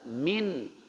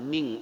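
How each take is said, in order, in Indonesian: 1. Kata itu berakhir dengan bunyi n yang jelas. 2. Kata itu berakhir dengan bunyi ng.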